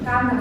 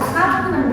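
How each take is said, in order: First: The middle m is short and single. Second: The middle m is doubled and pressed. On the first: The speaker calls it right. "maka cukup dibaca single" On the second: The speaker calls it wrong. "nggak usah common, nggak usah penekanan"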